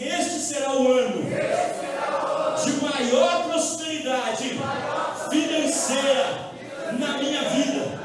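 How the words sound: It is said with a voice full of conviction.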